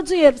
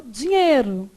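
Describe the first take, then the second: First: "dinheiro" keeping the I of "ei"; "dinheiro" with the glide left in; unnatural full diphthong. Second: "dinheiro" said as "dinhêro"; everyday reduced vowel. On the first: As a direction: pronounce "dinheiro" fully as "di-nhei-ro". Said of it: "Você não fala dinheiro". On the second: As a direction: drop the I glide in "dinheiro". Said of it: "você fala dinheiro". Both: Shown as a demonstration.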